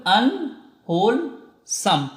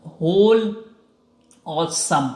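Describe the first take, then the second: First: अनहोलसम drawn out as an-hol-sam, very slowly; slow pronunciation. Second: अनहोलसम very slowly as an-hol-sam, parts pulled apart; slow pronunciation. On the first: Teacher repeating the pronunciation of अनहोलसम slowly. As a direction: say अनहोलसम once more, part by part. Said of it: "क्या कहेंगे हम लोग?". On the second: Teacher modelling the pronunciation of अनहोलसम for students. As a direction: model each part of अनहोलसम. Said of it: "इसकी pronunciation को आप क्या कहेंगे?". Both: Shown as a demonstration.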